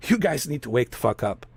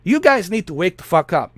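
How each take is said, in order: First: Much softer and lower, resigned; quiet repeat. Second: Said in the usual way. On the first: Real, not acted. Urging his viewers again, quiet and resigned. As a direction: drop it to a low murmur.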